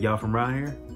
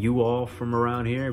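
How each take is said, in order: First: 'You all' is contracted into one syllable. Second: 'You all' is said as two separate words. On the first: "we can say y'all from around here. See how efficient that was?" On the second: "Instead of saying you all from around here"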